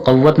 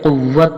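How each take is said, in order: First: कुव्वत misread as "qawwat", with a short "a" in the first syllable; mistaken reading. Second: कुव्वत said "quwwat", with a short "u" and doubled w; correct reading. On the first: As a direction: say कुव्वत wrongly with "qaw-" at the start. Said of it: "कुव्वत नहीं पढ़ेंगे". (कुव्वत का गलत उच्चारण, "क़व्वत") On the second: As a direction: say कुव्वत with "quw-" at the start. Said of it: "बल्कि कुव्वत पढ़ेंगे". (कुव्वत का सही उच्चारण, "क़ुव्वत") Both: Shown as a demonstration.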